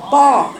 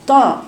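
First: طا with the back of the tongue raised, heavy and full; emphatic ta. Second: طا said light like a plain تاء with the tongue tip; wrong ta. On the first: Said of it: "شوفي الصوت سامعاه منين". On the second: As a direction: let طا slip out thin, tongue tip only. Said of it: "وليست". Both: Shown as a demonstration.

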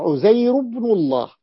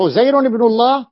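First: عزير ending in a bare -u, "Uzayru-bnullah"; no tanween. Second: عزير read with a final -un, linked as "Uzayrun-ibnullah"; tanween on عزير. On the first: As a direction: drop the nun, glide from عزير straight into ابن الله. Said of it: "بدون تنوين". (عزير بضمة واحدة بدون تنوين) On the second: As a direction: sound the nun ending on عزير before ابن الله. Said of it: "عزير ابن الله التي نقرأ فيها". (عزير بالتنوين، بنون مكسورة موصولة بما بعدها) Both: Shown as a demonstration.

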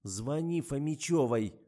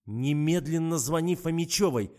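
First: Slow, firm, louder command; stern order. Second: Loud, raised, urgent command; commanding order. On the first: Investigator orders the driver to phone, stern. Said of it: "сурово приказала я". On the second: Investigator orders the driver to phone, loud commanding. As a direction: order it forcefully, at full voice. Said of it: "приказала я". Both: A narrator's reading.

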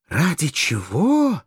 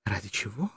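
First: Higher, slow, drawn-out exclamation; slow, rising incredulous cry; outraged echo. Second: Much softer, questioning repeat; quiet, held-back question; soft echo. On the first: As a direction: throw the question back indignantly. She repeats it, outraged and louder. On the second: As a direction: echo the question under your voice. She echoes his question, first softly. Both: A narrator's reading.

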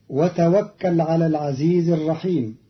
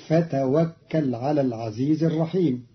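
First: Said in the usual way. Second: فتوكل as "fa-tawakkal"; fa replacing waw. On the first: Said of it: "كلمة وتوكل". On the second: Shown as a demonstration. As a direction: start فتوكل with an f, not w. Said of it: "بالفاء بدل الواو".

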